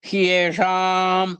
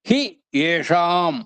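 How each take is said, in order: First: The words merge into one, with hi becoming hy. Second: The two words are said separately, hi then eshaam. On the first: "యనాదేశ సంధి జరగాల్సొచ్చింది. హ్యేషాం అయిందనమాట" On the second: "హి ఏషాం అన్నమాట ఇక్కడ"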